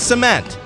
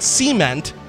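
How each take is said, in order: First: The stress falls on the second syllable. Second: The stress falls on the first syllable. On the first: The speaker calls it right. "it's cement" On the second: The speaker calls it wrong. "stop putting the emphasis on the wrong part of the word. It's not cement"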